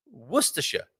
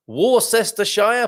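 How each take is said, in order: First: Worcestershire said as WUSS-tuh-sher; Worcestershire, short, three syllables; local pronunciation. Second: Worcestershire said as wor-SESS-ter-shire, every letter; Worcestershire drawn out, each syllable sounded, rising; spelled-out mispronunciation. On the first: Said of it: "How do you pronounce Worcestershire?". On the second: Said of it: "is how some people might go about it". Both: Shown as a demonstration.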